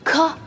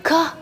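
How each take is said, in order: First: The consonant has a strong, exaggerated breathy hiss. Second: The consonant has a strong, exaggerated breathy hiss.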